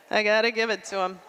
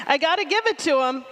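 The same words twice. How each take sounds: First: Said in the usual way. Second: Emphatic. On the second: Shown as a demonstration.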